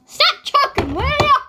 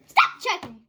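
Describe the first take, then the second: First: Higher, put-on scolding voice; playful pretend scold, pitched up; skit character scolding. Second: Said in the usual way. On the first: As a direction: tell them off in a higher character voice. Girl scolds in skit role.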